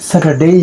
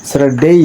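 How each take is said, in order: The two takes are said the same way.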